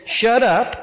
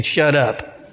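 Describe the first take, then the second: First: Higher-pitched curt command; mild, pitched-up rebuke; rebuking. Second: Said in the usual way. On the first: Acted. Jesus silences the unclean devil, rebuking. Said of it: "Jesus rebuked him and said". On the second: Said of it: "just a nice way of saying".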